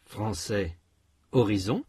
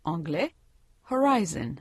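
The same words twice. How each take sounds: First: Horizon with a light lengthened last syllable; French stress. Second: Horizon said the English way, stress on the second syllable; English pronunciation. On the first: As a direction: say horizon stressing the final zon. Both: Shown as a demonstration. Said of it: "Comparez les mots français et anglais".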